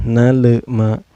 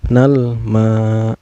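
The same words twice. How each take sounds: First: "nal, ma" with L bouncing into "le"; wrongly bounced L. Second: "Nal ma" with a clean L, no bounce; clear L. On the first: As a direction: add a small schwa after L: "na-le-ma". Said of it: "gak boleh". ("nal, ma" dengan bunyi L memantul) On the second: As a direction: say "Nal" cleanly, straight into long "ma". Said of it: "Tapi harus jelas". ("Nal ma" dengan L dibaca jelas) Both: Shown as a demonstration.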